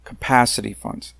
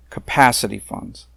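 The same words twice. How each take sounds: First: Capacity hit firmly, with a falling tune; stress on capacity. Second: Capacity repeated with a firm falling tune; stress on capacity. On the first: Speaker at a public hearing stressing capacity. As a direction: press on capacity, the key word. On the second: Speaker at a public hearing repeating capacity firmly. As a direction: land on capacity once more. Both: Shown as a demonstration. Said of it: "And I emphasize the word capacity".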